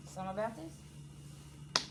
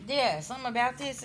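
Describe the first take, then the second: First: Soft, slow, questioning drawl; drawn-out musing. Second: Higher, louder, sure of it now; emphatic repeat. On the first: Reader puzzling over the cards, soft and drawn out. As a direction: pull the words out slowly, wondering. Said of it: "reader muses over cards twice". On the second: Reader confirming what the cards show, higher and emphatic. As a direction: land it with conviction. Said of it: "reader repeats with more force". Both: Real, not acted.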